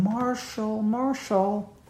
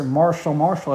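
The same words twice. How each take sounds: First: Higher, softly crooned, drawn-out name; soft high nurse calling a sleeper's name; young nurse's feminine voice. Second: Name repeated briskly in disapproval, usual pitch; indignant quoting of a too-casual first name; disapproving mimicry. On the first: Retold or imitated. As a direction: gently rouse a patient in a feminine voice. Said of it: "feminine voice saying". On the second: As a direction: throw the name back as overfamiliar. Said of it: "was disturbed by that".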